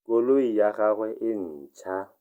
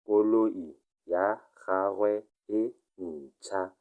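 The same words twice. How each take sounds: First: Said in the usual way. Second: Slow, careful model reading; slow repeat. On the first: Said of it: "teacher reads the model sentence". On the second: Shown as a demonstration. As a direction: spell out Koloi ya gagwe e ntšha word by word for learners. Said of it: "teacher repeats it slowly".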